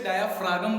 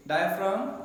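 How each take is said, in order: First: डायाफ्रागम with an extra ग, dia-fra-gam; wrong pronunciation. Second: डायाफ्राम as dia-fraam, no g sound; correct pronunciation. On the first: Teacher showing students the common mispronunciation डायाफ्रागम. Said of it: "तो फ्रागम नहीं बोलना". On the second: Teacher modelling the right way to say डायाफ्राम. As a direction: say डायाफ्राम cleanly, ending on a plain m. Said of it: "pronounce सही कीजिए". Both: Shown as a demonstration.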